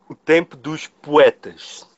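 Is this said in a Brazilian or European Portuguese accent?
European. It is said in an imitated European Portuguese accent.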